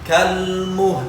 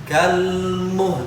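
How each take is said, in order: Both takes have the same delivery.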